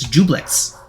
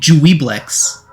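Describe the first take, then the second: First: The name is said in a shortened form. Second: The name is read out just as spelled. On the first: The speaker calls it right. "but apparently it's Jublex" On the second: The speaker calls it wrong. "I've been pronouncing it like phonetically"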